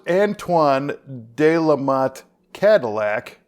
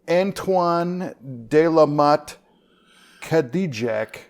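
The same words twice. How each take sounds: First: The name is said with American English pronunciation. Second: The name is said with French-style pronunciation.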